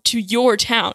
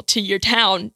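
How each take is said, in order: First: Emphatic YOUR, set against the rest; stress on YOUR. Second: Said in the usual way. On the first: Real, not acted. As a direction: punch the word YOUR. Repeats phrase to stress whose town.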